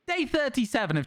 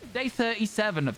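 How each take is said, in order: First: The voice is bright, happy and energetic. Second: The voice is plain and flat, without energy. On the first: It grabs people's attention straight away. The speaker calls it right. "I put on a little bit of a of a of a happier voice for it" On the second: It fails to grab attention. The speaker calls it wrong. "I can't just be like"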